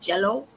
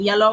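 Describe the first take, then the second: First: The word begins with a J sound. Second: The word begins with a Y sound. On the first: The speaker calls it wrong. "I would say jello" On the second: The speaker calls it right. "instead of saying yellow"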